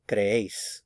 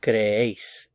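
First: Said in the usual way. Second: "creéis" slowly as cre-ÉIS; careful teaching cre-ÉIS for "creéis"; stress on second syllable. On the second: Shown as a demonstration. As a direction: stretch and lean on the "éis" of "creéis". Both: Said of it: "the stress is on this syllable".

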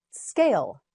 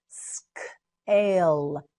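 First: Said in the usual way. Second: "Scale" split into s, k, long ale; slow sounding-out. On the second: Shown as a demonstration. Teacher models word in parts.

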